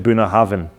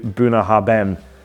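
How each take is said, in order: First: The middle consonant is said as a v. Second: The middle consonant is said as a hard b. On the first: This is how the name is really said. The speaker calls it right. "The B and H together actually make a V sound" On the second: This is the common way people say it. The speaker calls it wrong. "Most people say Bunnahabhain"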